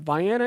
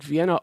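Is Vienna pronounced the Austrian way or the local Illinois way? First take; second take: local; Austrian. First: Pronounced the way local Illinois people say it. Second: Pronounced like the name of the Austrian capital. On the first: "people pronounce it Vienna. So I will try to say that" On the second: "like Vienna, Austria"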